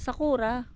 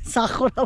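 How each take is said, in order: First: It is said with a Filipino accent. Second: It is said with a Japanese accent.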